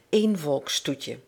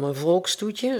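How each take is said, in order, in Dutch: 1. De klemtoon valt op het eerste woord. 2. De klemtoon valt op het tweede woord. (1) "Let op het accent" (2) "het gaat hier niet om een volkstoetje"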